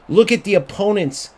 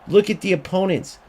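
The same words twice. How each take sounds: The two takes are said the same way.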